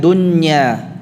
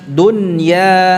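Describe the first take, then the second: First: The n blends nasally into the following y. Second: The n is clearly separate from the following y. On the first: The speaker calls it wrong. "bukan dunya" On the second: The speaker calls it right. "dunya dunya bukan dunya ya, ya-nya tidak ada gunnahnya ya, nunnya dibaca dengan izhar jelas"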